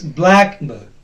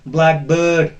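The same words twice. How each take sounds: First: The stress is on the first syllable. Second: The stress is on the second syllable. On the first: The speaker calls it right. "No, it's blackbird" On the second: The speaker calls it wrong. "it will not be pronounced as blackbird"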